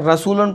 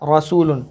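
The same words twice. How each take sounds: First: The first r sound is light and thin. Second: The first r sound is heavy and full. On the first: The speaker calls it wrong. "ये दुरुस्त नहीं होगा" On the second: The speaker calls it right. "बल्कि इसको पढ़ा जाएगा रसूलुन"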